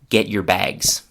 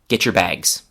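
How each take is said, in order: First: Get and your are said as separate words. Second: Get and your blend together into getcher. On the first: "without any chewing gum features" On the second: "I will say it at normal speed"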